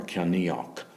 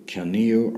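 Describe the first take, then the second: First: Ceanniach ending in "nee-ok"; hard "k" ending. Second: Ceanniu ending in "nee-oo"; open "oo" ending. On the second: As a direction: say ceanniu as "kyan-nee-oo", no final consonant. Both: Shown as a demonstration. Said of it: "However you pronounce it".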